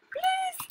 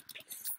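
First: Pleading squeak. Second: Breathy plea. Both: Real, not acted. Begging for the shot to land.

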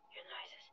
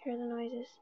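First: Breathy hush, no voice at all; creepy whispered warning. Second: Said in the usual way. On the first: Acted. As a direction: whisper it like the monster could hear. Repeats line, then whispers it.

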